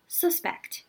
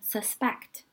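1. 重音在第一个音节上。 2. 重音在第二个音节上。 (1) "作为名词的时候，它的重音就挪到了最前面，叫suspect" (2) "作为动词的时候，它的重音在后面，念suspect"

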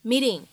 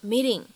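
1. 这个t是轻柔的闪音，听起来像d。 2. 这个t是轻柔的闪音，听起来像d。

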